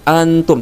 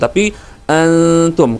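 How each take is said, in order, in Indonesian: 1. Bunyi n diucapkan dengan jelas dan singkat. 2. Bunyi n samar, sengau, dan ditahan lebih lama. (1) "tidak seperti antum" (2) "dibaca dengan samar, tidak jelas"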